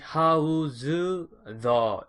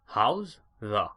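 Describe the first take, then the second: First: It is said with a Korean-style accent. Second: It is said in a native English way. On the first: The speaker calls it wrong. "한국 사람 하듯이 how's the 이게 아니에요" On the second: The speaker calls it right. "How's the 이게죠"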